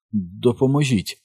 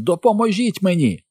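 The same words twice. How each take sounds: First: Slow, strained plea for help; barely managed. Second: High-pitched yell for help; crying out. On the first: Mike begs the children for help, barely managing to speak. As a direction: barely get the word out. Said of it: "ледве вимовив Майк". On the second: Henry, knocked down, yells to his gang for help, high cry. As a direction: call out urgently, pitched well up. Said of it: "закричав він". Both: A narrator's reading.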